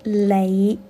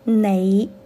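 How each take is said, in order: First: The word begins with an l sound. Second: The word begins with an n sound. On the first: The speaker calls it wrong. "不是雷" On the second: The speaker calls it right. "粤语里面你应该是你"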